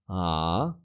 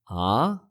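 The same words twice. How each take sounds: First: The pitch dips down and then rises. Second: The pitch rises from low to high. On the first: "falling, then rising"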